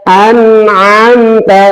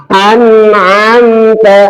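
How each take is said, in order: Both takes have the same delivery.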